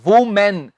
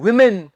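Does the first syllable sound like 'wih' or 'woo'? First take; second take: woo; wih. First: The first syllable sounds like 'woo'. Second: The first syllable sounds like 'wih'. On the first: The speaker calls it wrong. "ਬਹੁਤ ਸਾਰੇ ਲੋਕੀ ਬੋਲ ਦਿੰਦੇ ਹਨ" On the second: The speaker calls it right. "ਪਹਿਲਾਂ ਆਪਾਂ ਕਵਾਂਗੇ ਵੀ"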